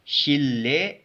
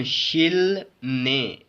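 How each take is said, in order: First: शिल्ले with a held double L; blended L sound. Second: शिल ने split, with N after L; unblended L-N. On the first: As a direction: join शिल्ले on a long ल. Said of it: "it is". (शिल्ले, लंबे लाम की आवाज़ से) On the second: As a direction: sound ल then न in शिल ने. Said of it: "कुछ ऐसे नहीं पढ़ेंगे". (शिल ने, ल और न अलग) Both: Shown as a demonstration.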